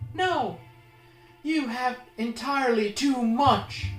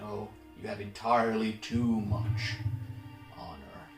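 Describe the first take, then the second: First: It is said in an agitated, uncalm way. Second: It is said in a calmer, quieter way.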